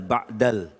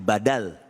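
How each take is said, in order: First: A glottal catch splits the word's two syllables. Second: The two syllables run together without a catch. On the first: It is heard as a word meaning 'after'. The speaker calls it wrong. "banyak orang yang salah menyebutkan bukan ba'dal" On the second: It means a substitute. The speaker calls it right. "tapi badal"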